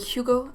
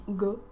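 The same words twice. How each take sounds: First: It is said with a light French accent. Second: It is said with a heavy French accent. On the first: The speaker calls it right. "it was much lighter, so that I would say Hugo" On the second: The speaker calls it wrong. "and I wouldn't say Hugo"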